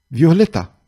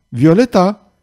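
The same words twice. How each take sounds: First: Calling out. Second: A higher, louder second call. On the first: Calling the girl to sing. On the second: Belgoder calling Violeta to come and sing, loud. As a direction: shout her name across the square. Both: Acted.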